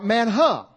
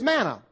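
First: An h sound follows the n in the middle. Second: The middle is a plain n with no h. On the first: This is closer to the original Hebrew. "but in the Hebrew, it's more M-A-N-H-U-H. Manha is really how it's better pronounced" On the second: This is the usual English way of saying it. "we pronounce it M-A-N-N-A"

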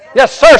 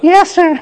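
First: It is said crisply with firm authority. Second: It is said weakly without any authority. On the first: The order is accepted with full commitment. The speaker calls it right. "How does a military mindset, your commander comes to you" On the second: The order is accepted half-heartedly. The speaker calls it wrong. "You don't say, you don't go"

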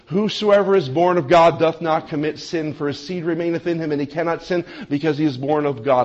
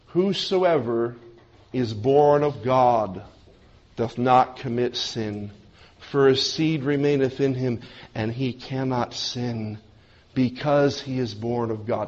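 First: It is read at a faster pace. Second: It is read at a slower pace.

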